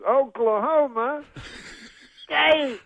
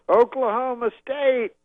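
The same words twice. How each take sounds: First: Slower, high loud crowd call; Bill Cosby. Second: High, loud stage call, drawn out; Bill Cosby. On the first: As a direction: stretch it out, big pause before State. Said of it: "he says it slower". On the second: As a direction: imitate a comedian rousing a huge crowd. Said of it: "he goes on stage and he goes". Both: Retold or imitated.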